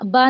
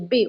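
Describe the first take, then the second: First: The name ends in an 'a' vowel. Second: The name ends in an 'e' vowel. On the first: The speaker calls it wrong. "इसको हम बा नहीं बोलेंगे" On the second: The speaker calls it right. "Urdu में बे ही बोलना है"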